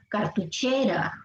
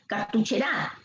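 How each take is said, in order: First: The stress is on the third syllable, che. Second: The stress is on the last syllable, ra. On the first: The speaker calls it right. "la pronunciación correcta, que es esta" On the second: The speaker calls it wrong. "Si fuera en gra"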